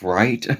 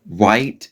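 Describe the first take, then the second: First: The r sound is pronounced clearly. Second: The r sound is weak or distorted. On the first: The speaker calls it right. "instead of right" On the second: The speaker calls it wrong. "my R's were, you know, very, very bad"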